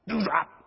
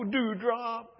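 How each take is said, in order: First: It is said in a sharp, harsh tone. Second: It is said in a sweet, affectionate tone. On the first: The affection between the couple has faded. "The tone has changed" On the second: The couple is newly in love. "the flattering names they used for each other"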